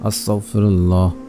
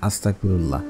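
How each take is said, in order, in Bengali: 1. শব্দের প্রতিটি ধ্বনি যত্ন করে উচ্চারিত হয়েছে। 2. শব্দের ধ্বনিগুলো একসঙ্গে জড়িয়ে গেছে।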